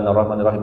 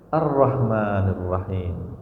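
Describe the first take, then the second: First: It is recited carelessly, without attention to meaning. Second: It is recited thoughtfully, plainly, without melody.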